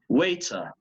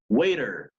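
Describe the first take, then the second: First: A clear T and no final R sound. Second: A flapped T and a sounded final R. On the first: "británico, British ... La T siempre marcada, la R no sonada al final" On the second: "American English ... La R del final está sonando ... la T entre vocales está palatalizada"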